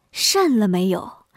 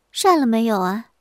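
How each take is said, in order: First: Slow, drawn-out misheard question; 听岔了. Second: Wife's pointed question; 瞪眼追问. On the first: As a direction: stretch it out, lower, as the alarmed guest hears it. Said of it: "李文平听成了". (压低声音，一字一字拖长) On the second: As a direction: put it squarely to the guest. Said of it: "乔氏头一抬， 眼一瞪， 问". (瞪着眼直接追问) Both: Acted.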